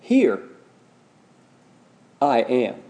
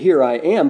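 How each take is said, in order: First: There is a pause after 'Here'. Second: It is said without a pause.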